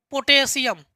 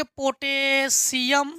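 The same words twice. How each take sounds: First: Said in the usual way. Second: potassium drawn out syllable by syllable; slow dictation. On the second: Shown as a demonstration. Teacher writing potassium for students, slow dictation with long syllables. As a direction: stretch potassium slowly, as if writing it.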